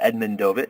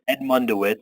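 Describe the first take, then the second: First: The name is said the Polish way. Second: The name is said the English way.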